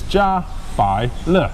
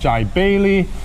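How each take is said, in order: First: The name is three syllables: ja, bai, le. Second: The name starts with 'jai', then 'bailey'. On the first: The speaker calls it right. "This is Ja Bai Le" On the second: The speaker calls it wrong. "it's not Jai Bailey"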